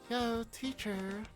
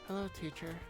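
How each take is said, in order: First: It is said in a normal voice. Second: It is said in a deep voice.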